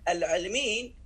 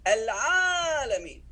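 First: The middle vowel is a short i sound. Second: The middle vowel is a long a sound. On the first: The word is written without the alif. The speaker calls it wrong. "if you remove the vowels, it will sound like this" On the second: The word is written with the alif. The speaker calls it right. "it actually does sound like al-alamin"

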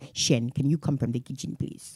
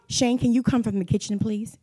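First: It is said in an imitated London accent. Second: It is said in the speaker's ordinary accent.

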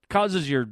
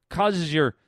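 No difference in how they are said.

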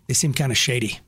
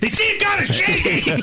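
First: It is said at a normal, quiet volume. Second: It is said loudly.

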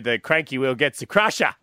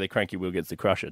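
First: It is said loudly with lots of energy. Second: It is said quietly with little energy. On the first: The speaker calls it right. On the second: The speaker calls it wrong.

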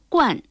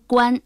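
First: The word has a sharply falling tone. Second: The word has a high level tone. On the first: It means wearing a hat or being foremost. "就读第四声冠" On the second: It means a hat or something like a hat. "读第一声冠"

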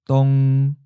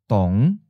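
First: The pitch stays mid and level. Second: The pitch starts low and rises. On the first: "Seventh tone, mid flat" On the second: "Fifth tone, low rising"

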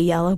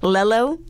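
First: The word begins with a Y sound. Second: The word begins with an L sound. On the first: The speaker calls it right. "It's supposed to be yellow" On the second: The speaker calls it wrong. "Lello? Mm-hmm"

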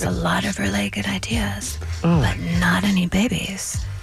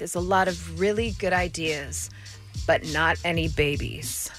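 First: The voice is put on, low and soft. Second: The voice is ordinary, at normal pitch and volume.

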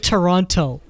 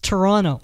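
First: The second T is clearly pronounced. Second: The second T is dropped. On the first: The speaker calls it wrong. "Don't say Toronto" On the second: The speaker calls it right. "There's no T"

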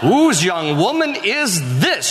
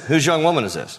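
First: It is said in a flirtatious, excited tone. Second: It is said in a plain, matter-of-fact tone.

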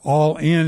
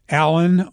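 First: It sounds like two words, all in, clearly. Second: It sounds like the name Alan, second syllable reduced. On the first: The speaker calls it right. "or All In if you pronounce it correctly" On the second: The speaker calls it wrong. "It's spelled A-L-L-I-N, Alan"

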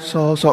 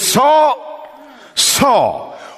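First: It is said gently and kindly. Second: It is said with intensity.

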